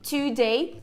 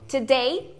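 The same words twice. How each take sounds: First: The first vowel is a full 'oo' sound. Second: The first vowel is a weak, neutral schwa. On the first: It means two days. "dois dias" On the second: It means the present day.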